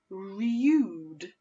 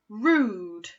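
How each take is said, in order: First: The vowel is yoo, starting with y. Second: The vowel is a plain oo, no y. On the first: The speaker calls it wrong. "I'm going to try it the second way" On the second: The speaker calls it right. "that one does sound right"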